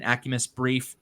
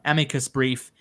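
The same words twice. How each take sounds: First: Reading the page, stumbling on amicus as "ACK-uh-mus"; mispronounced. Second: Said in the usual way. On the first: Real, not acted. Host reading out her record, amicus slipped into "ACK-uh-mus". Misreads, then corrects the word.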